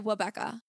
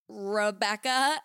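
First: The name begins with a W sound. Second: The name begins with a careful R sound. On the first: "I would say Wabecca" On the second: "they teach you how to use your lip"

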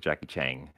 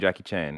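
First: The name ends with an ng sound. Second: The name ends with a plain n sound. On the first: The speaker calls it wrong. "You've added a G at the end of his name" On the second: The speaker calls it right. "Just pretend that I was saying Jackie Chan"

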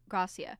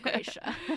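First: The name is said with a Spanish pronunciation. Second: The name is said with an English pronunciation. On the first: This is the technically correct pronunciation. "technically supposed to be pronounced Gracia" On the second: This is how the name's owner actually says it. "It's my middle name and I say Gracia"

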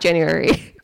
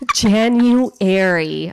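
First: The word is said quickly and slurred. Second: The word is said slowly and carefully. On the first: The speaker calls it wrong. "If not, it comes out January" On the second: The speaker calls it right. "I have to like say it really slow"

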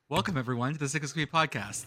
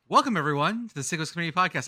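First: It is said softly and smoothly. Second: It is said hard and forcefully.

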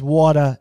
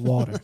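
First: It is said in a Boston accent. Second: It is said in a standard accent. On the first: "he says water" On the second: "instead of water"

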